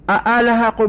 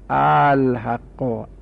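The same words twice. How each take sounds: First: The second hamza is pronounced fully and firmly. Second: The second hamza is softened toward a long a. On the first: "بخونیم تحقیقی" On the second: "همزه دویم تسهیل شده"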